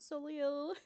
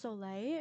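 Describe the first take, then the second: First: The name ends with a 'lil' sound. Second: The name ends with a 'lay' sound. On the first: This is a playful pronunciation chosen for fun. "I just think it's really cute to pronounce it Solil" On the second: This is the original French pronunciation. "I believe it's Soleil in French"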